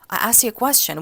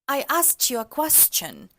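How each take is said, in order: First: Standard American accent. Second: Mid-Atlantic accent, calm and unhurried.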